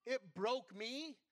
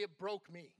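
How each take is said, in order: First: Emotional. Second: Said in the usual way. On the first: Real, not acted. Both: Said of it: "I'm getting emotional thinking about it".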